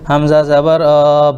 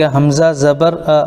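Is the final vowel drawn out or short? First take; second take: drawn out; short. First: The final vowel is drawn out long. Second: The final vowel is short and quick. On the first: The speaker calls it wrong. "हमने ज़बर को खींच दिया" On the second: The speaker calls it right. "तो हम इसको यूँ पढ़ेंगे"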